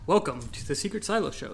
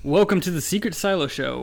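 First: It is said calmly, with low energy. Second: It is said with more energy.

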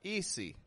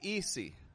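First: The middle consonant is a hissing S sound. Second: The same.

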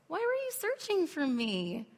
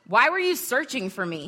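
First: It is said in a kind, gentle tone. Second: It is said in a harsh, rebuking tone.

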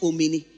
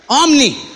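First: An extra vowel sounds between m and n. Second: No vowel sounds between m and n. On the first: The speaker calls it wrong. "It's not omini" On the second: The speaker calls it right. "Everybody say omni"

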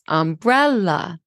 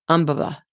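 First: The second syllable is stressed and rises. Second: All syllables carry equal stress. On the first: This is how most speakers say it. "when we say umbrella, the second syllable rises" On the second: "they said this"

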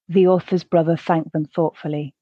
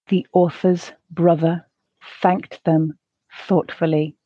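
First: It is said at a natural pace. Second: It is said at a slow pace. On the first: "the second at a more natural pace" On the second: "the first time slowly"

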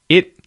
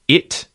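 First: The final T is held without release. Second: The final T is audibly released. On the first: "If you don't release the T" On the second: "if you release the T"

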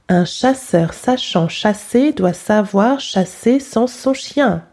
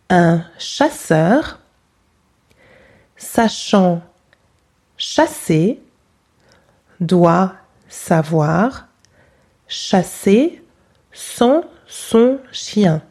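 First: It is said at normal pace. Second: It is said slowly.

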